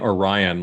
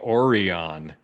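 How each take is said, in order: First: Orion is pronounced the standard, usual way. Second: Orion is pronounced an odd, unusual way. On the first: The speaker calls it right. "like normal people" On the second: The speaker calls it wrong. "they spend the whole episode saying Orion"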